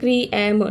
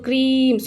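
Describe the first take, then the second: First: The vowels are split into two syllables. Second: The vowels merge into one single syllable. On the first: The speaker calls it wrong. "हम लोग ऐसा नहीं पढ़ते ना, क्री एम no ना" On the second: The speaker calls it right. "ये जो सेकेंड वोवल है इसे हम साइलेंट में रखते हैं"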